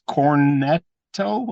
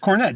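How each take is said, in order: First: The name ends with an extra 'oh' vowel. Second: The name ends without an extra vowel. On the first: The speaker calls it wrong. "not Cornetto. He's not an ice cream" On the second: The speaker calls it right. "It's Cornet"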